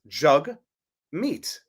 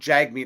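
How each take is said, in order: First: The first syllable sounds like 'jug'. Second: The first syllable sounds like 'jag'. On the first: The speaker calls it right. "Pronounced Jug Meat" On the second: The speaker calls it wrong. "not Jagmeet as I thought it was"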